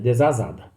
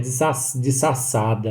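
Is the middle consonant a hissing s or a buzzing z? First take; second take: buzzing z; hissing s. First: The middle consonant is a buzzing z sound. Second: The middle consonant is a hissing s sound. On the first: The speaker calls it right. "é desasada" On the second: The speaker calls it wrong. "não é desassada"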